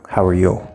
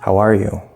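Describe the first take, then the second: First: The stress falls on the word you. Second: The stress falls on the word are. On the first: The question is being turned back to the other person. "That sounds more like we're emphasizing you" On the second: The question is asked without any previous context. "say this with the stress on are"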